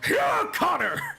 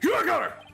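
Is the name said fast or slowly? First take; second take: slowly; fast. First: It is yelled angrily at a slower pace. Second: It is yelled angrily at a faster pace.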